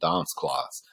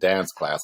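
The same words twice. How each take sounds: First: It is said in a British accent. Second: It is said in an American accent. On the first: This is how the speaker talked after training. "I was saying" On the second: This is how the speaker used to talk. "instead of saying"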